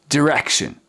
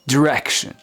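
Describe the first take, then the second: The two takes are said the same way.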